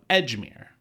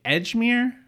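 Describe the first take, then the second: First: Said in the usual way. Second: Edgemere asked high and sharp; shocked repeat of the address; incredulous echo. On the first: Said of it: "he's drunk". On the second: Retold or imitated. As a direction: repeat Edgemere in disbelief, pitch jumping up.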